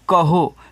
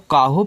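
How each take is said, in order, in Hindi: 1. पहला स्वर छोटा है। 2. पहला स्वर लंबा है। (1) "लिखा है कहो" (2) "काहो पढ़ देगा"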